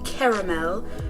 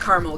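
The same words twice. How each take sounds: First: The word is said in a fuller, fancier form. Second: The word is said in a casual everyday form. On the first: "I should pronounce it the fancy way" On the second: "I'm a caramel girl"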